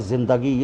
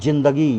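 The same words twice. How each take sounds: First: The word begins with a z sound. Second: The word begins with a j sound. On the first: The speaker calls it right. "ये जा का प्रयोग होगा जिंदगी, ये शुद्ध होगा" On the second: The speaker calls it wrong. "अब लोग बोलते हैं जिंदगी, ये गलत हो जाता है"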